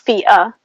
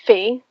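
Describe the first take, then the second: First: The name is two syllables, like fee-ah. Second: The name is one syllable, like fee. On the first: It follows the reported official pronunciation. "I've read that the pronunciation is Fia" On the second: It follows how the name is spelled. "I'm gonna say Fee"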